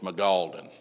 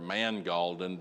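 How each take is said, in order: First: No n sound is heard before the g. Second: An n sound is heard before the g. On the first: "the way I heard it pronounced was Magaldan" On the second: "the N has got to be heard somewhere"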